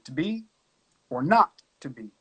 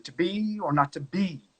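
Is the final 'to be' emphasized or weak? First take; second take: weak; emphasized. First: The final 'to be' is weak and lost. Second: The final 'to be' is clearly emphasized.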